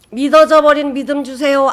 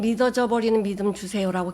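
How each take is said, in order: First: Fervent loud prayer. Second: Said in the usual way. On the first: Retold or imitated. Sister praying in her car, crying out loud. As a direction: cry out 믿어져 high and much louder, pleading.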